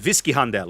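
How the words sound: The name is said with a German pronunciation.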